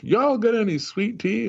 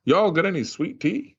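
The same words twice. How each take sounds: First: Hammed-up Georgia accent, much higher pitch; mock the Georgia guy ordering in a Boston pub; Southern Georgia accent. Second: Put-on light Georgia accent, higher pitch; imitating a Georgia friend at lunch, mild Southern accent; Southern Georgia drawl. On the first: Host retells Austin asking for sweet tea, exaggerated higher Georgia accent. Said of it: "Austin's like". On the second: Host retells colleague ordering at lunch, lightly imitated Georgia accent. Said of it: "I know he was from Georgia".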